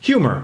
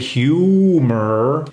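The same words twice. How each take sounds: First: It is said with an American accent. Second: It is said with a non-American accent. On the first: The speaker calls it right. "I'm saying it like an American would say it" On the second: The speaker calls it wrong. "An American wouldn't say humor"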